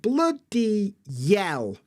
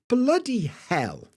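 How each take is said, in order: First: The second word starts with a Y sound. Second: The second word starts with an H sound. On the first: "the Y moves over and you get bloody yell" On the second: "instead of bloody hell"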